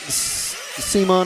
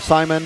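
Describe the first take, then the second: First: The name is said in a non-English way. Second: The name is said in an English way.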